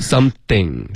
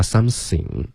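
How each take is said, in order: First: "Something" with the tongue tip at the teeth for TH; correct TH. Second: "something" mispronounced as sam-sing. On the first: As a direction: put dental friction in "Something". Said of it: "舌尖要碰上齿". (“Something”th舌尖碰上齿) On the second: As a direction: mimic a learner hissing S in place of TH in "something". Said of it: "不能发". (模仿错误发音，“something”发成sam-sing) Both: Shown as a demonstration.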